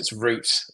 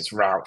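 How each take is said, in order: First: It is said in a British accent. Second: It is said in an American accent.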